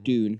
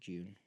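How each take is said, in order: First: It begins with a plain d sound. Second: It begins with a j sound. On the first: This is how Americans say it. "Americans say" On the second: This is how people here say it. "we say"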